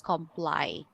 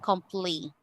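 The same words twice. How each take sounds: First: The ending does not sound like adverb -ly. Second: The ending sounds like the adverb ending -ly. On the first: The speaker calls it right. "the pronunciation of this is comply" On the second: The speaker calls it wrong. "not comply"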